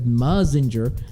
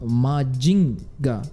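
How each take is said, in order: First: The middle consonant is a z sound. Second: The middle consonant is a j sound. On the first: This is the adapted pronunciation used abroad. "they didn't pronounce it as Mazinger" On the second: This is the original Japanese pronunciation. "They actually called Majinga"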